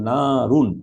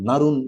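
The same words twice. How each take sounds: First: The first vowel is drawn out long. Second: The first vowel is cut short. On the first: The speaker calls it right. "এক আলিফ টান দিয়ে আপনাকে বলতে হবে" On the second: The speaker calls it wrong. "এভাবে বললে জিনিসটা ঠিক কারেক্ট হবে না"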